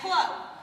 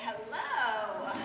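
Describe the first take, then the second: First: It is said in a plain, ordinary way. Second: It is said in a seductive way.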